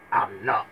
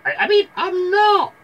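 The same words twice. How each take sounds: First: Low wolf reply; wolf denying it in a low voice; wolf's own voice. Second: Loud, very high fake girl voice; wolf hastily putting on a girly falsetto; wolf faking Red. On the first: Acted. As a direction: answer low, forgetting the disguise. Wolf slips out of his disguise. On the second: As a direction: correct yourself into a squeaky falsetto. Wolf corrects to Red's voice.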